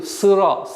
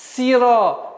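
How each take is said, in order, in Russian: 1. Гласный после s — тёмный ы. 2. Гласный после s — светлый и. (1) "не должно соответствовать звуку «ы»" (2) "быстрый переход на касру"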